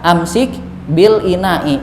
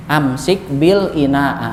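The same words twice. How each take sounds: First: "ina'i" ending in a clear i, the kasrah case; correct ending on ina'i. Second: "ina'a" ending in a long open a, the wrong case. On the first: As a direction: say "bil ina'i" slowly, landing on the final i. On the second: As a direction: say "bil ina'a" slowly with the final a drawn out. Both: Shown as a demonstration.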